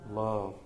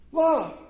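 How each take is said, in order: First: Low, hushed single word; softly spoken. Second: High, punchy single word; emphatic. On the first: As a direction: drop it low and soft. Soft first take, then repeated loudly. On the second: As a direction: call it out high and firm. Emphatic repeat of soft word. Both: Real, not acted.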